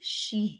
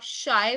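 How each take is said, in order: First: The vowel is pronounced like 'ee'. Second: The vowel is pronounced like 'eye'. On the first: The letters are read as in French. The speaker calls it right. "So I is E, so C H I will be she" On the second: The letters are read as in English. The speaker calls it wrong. "आई बोलते तो आप शाय बोल रहे हो"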